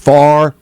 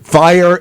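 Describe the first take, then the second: First: The word has a flattened vowel, like 'far'. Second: The word has a standard two-part vowel. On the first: "fire as far, which is a trait there" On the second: "he pronounces fire"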